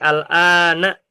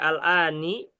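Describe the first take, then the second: First: The word ends with an a vowel. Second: The word ends with an i vowel. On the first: The speaker calls it right. "al-an ini selalu fathah" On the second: The speaker calls it wrong. "Nggak mungkin dibaca"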